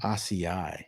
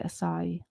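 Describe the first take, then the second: First: Acai said AH-see-eye, low; wrong pronunciation. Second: Acai said ah-sigh-EE; three-syllable pronunciation. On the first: Host attempting the hated word, acai as AH-see-eye. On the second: Co-host testing host on the word, acai as ah-sigh-EE. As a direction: say acai with a final stressed "ee". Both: Shown as a demonstration. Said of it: "Do you know how to say acai?".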